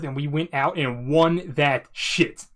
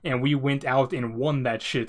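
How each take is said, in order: First: It is said loudly, as if in all caps. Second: It is said in a normal voice.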